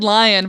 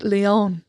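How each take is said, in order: First: It sounds like the English word lion. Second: It sounds like lee-on, with an ee vowel. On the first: The speaker calls it wrong. "I said lion, but it's Leon" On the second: The speaker calls it right. "but it's Leon"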